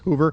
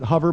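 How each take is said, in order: First: The first vowel is a long 'oo' sound. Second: The first vowel is a short 'uh' sound. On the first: A joke that his hovering sucks like a vacuum. "it kind of sucks, so it's hoover" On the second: The usual way to say it. "most people pronounce it hover"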